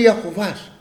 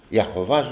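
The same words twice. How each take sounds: First: Said in the usual way. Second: Low, soft retold question; subdued, low-pitched query; puzzled echo. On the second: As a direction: echo the unknown word quietly, puzzled. Retold puzzled echo of unknown word.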